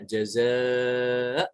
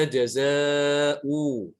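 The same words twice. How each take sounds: First: Jaza ended cleanly on the hamzah, no final vowel, slow; correct pausal reading. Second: Jaza'u with the final u voiced, louder and slow; wrong reading. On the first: Teacher shows the right stop, slow and clear. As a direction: stop on jaza with no wawu sound. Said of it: "maka dibacanya". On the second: Teacher shows the forbidden reading, louder, slow. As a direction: say jaza'u with an audible u ending as the mistake. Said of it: "Tidak boleh dibaca". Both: Shown as a demonstration.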